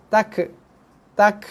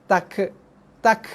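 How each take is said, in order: Both takes have the same delivery.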